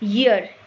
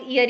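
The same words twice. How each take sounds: First: The word starts with a y sound. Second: The word starts with a plain vowel sound. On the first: The speaker calls it right. "उसकी pronunciation शुरू होती है या word से" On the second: The speaker calls it wrong. "इसको ज्यादातर लोग ईयर ही pronounce करते हैं"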